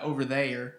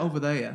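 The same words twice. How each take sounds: First: It is said with the final R pronounced. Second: It is said with the final R dropped.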